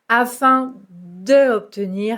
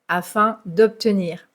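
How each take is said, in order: First: The word de is said in full. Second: The word de is elided into obtenir. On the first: The speaker calls it wrong. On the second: The speaker calls it right. "on doit mettre l'apostrophe"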